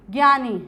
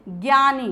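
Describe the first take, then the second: No difference in how they are said.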